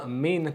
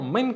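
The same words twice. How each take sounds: First: The vowel in 'min' is long. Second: The vowel in 'min' is short. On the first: It means 'kind' or 'sort'. The speaker calls it wrong. "לא" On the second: It means 'from'. The speaker calls it right. "אלא"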